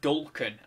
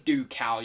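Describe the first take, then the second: First: It is said with an L sound. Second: It is said without an L sound. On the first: The speaker calls it wrong. "but I always say Dulcan" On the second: The speaker calls it right. "I think it is Ducal you pronounce it"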